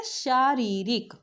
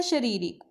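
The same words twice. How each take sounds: First: शारीरिक with a long शा, slowly; slow correct pronunciation. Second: शारीरिक with a short श; wrong pronunciation demo. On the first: Teacher models the correct शारीरिक slowly. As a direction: stretch the first आ in शारीरिक. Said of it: "Hindi में क्या होता है?". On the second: Teacher reads the textbook's misspelling aloud. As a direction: read the book's wrong शारीरिक. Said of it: "इन्होंने लिखा है शारीरिक". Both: Shown as a demonstration.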